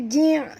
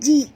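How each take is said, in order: First: It ends with a throaty ain sound. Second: It ends with a glottal stop. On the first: The speaker calls it wrong. "bukan ain" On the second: The speaker calls it right. "ji hamzah yang mati"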